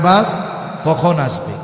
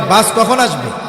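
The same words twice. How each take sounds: First: It is a plain question asking for information. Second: It is an annoyed, scolding question.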